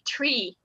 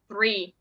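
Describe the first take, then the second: First: The word begins with a plain t sound. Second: The word begins with a th sound. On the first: This is how speakers in Ireland say it. "they would say tree" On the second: This is the usual pronunciation elsewhere. "instead of"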